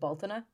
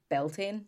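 First: It is said the Irish way, like 'bal-tin-a'. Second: It is said the anglicized way, like 'bell-tain'. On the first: This is how Irish speakers say it. "we would pronounce it Baltana" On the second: This is how many other people say it. "a lot of people say Beltane"

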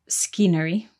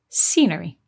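First: The c is pronounced as a k sound. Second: The c is silent, starting with an s sound. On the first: The speaker calls it wrong. "we don't say scenery" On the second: The speaker calls it right. "the C is silent at the beginning. ... we say scenery"

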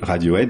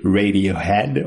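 First: It is said with a French accent. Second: It is said with an American accent.

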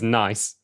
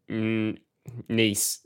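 First: The vowel sounds like the one in mice. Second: The vowel sounds like the one in peace. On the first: The speaker comes from a working-class background. "your favourite choice is nice, like mice" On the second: The speaker comes from a privileged background. "it appears you say nice, like peace"

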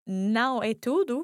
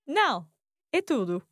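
First: It is said without a pause after não. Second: There is a pause after não.

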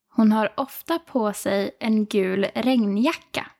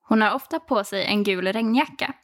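First: It is said slowly and carefully. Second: It is said at normal conversational speed.

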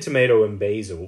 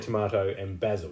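First: It is said in Riker's American accent. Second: It is said in an Australian accent.

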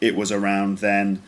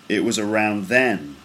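First: The pitch stays flat at the end. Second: The pitch goes down at the end. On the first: The speaker calls it wrong. "Sounds a bit like a robot" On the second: The speaker calls it right. "it's kind of straight, and then it falls at the end"

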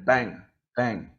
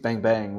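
First: The two bangs are separated by a pause. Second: The two bangs run together without a pause. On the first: The punches are two single separate techniques. The speaker calls it wrong. "rather than" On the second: The two punches form one combination. The speaker calls it right. "how to make those two punches"

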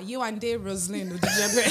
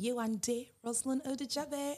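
First: The name is said in a Nigerian accent. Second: The name is said in an anglicized accent.

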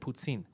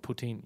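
First: The t is said as a ts sound. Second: The t is said as a plain t. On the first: The speaker calls it right. "In French, when they do the T-I, they know to do the ts sound" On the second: The speaker calls it wrong. "But in English, they don't. So they just do poutine"

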